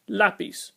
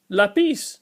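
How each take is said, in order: First: Lápiz with the accented A stressed, LÁ-piz; stress on first syllable. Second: Lápiz with the stress moved to the end, la-PIZ; stress on last syllable. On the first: Teacher shows the accent overriding the rule, lápiz stressed on LÁ. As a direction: say lápiz punching LÁ, light second syllable. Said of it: "is always pronounced lápiz". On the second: Teacher shows how the rule alone would sound, lápiz stressed on the last syllable. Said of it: "should be pronounced lápiz". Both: Shown as a demonstration.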